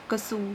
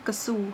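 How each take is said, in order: First: The first syllable is reduced to ka. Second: The first syllable is reduced to ka.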